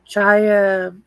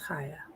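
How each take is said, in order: First: The name begins with a 'ch' sound. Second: The name begins with a breathy 'h' sound. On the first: The speaker calls it wrong. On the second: The speaker calls it right.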